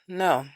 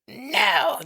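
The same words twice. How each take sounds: First: The word is said softly and warmly. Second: The word is said sharply and harshly. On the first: The speaker calls it right. "Say it with love" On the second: The speaker calls it wrong. "Not with no. Don't do that"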